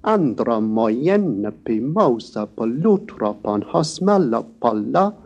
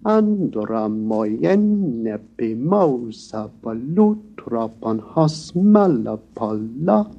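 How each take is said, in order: First: "Andra moyenne pimosa polutropon" bounced in stressed threes; stress-timed dactyls on "Andra moyenne pimosa"; jigging triple time. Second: "Andra moyenne pimosa polutropon" slow, long syllables given full length; drawn-out, balanced quantities on "Andra moyenne pimosa"; measured quadruple time. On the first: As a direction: jig through "Andra moyenne" as ONE-two-three, ONE-two-three. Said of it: "one often hears dactyls pronounced like this". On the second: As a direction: chant "Andra moyenne" slowly in even four time. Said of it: "instead of the quadruple time".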